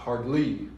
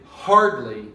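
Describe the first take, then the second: First: The stress is on the last syllable. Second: The stress is on the first syllable. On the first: The speaker calls it wrong. "not hardly" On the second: The speaker calls it right. "It's stressed on the hard and not the um, suffix ly"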